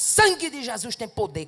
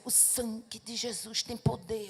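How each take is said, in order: First: It is shouted loudly and forcefully. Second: It is said slowly and softly.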